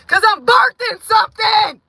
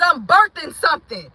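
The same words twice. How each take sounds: First: "birthing" shouted high and loud. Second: Said in the usual way. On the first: Real, not acted. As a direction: yell it out like giving birth. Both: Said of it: "I'm screaming and I'm yelling".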